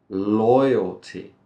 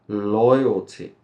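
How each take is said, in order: Both takes have the same delivery.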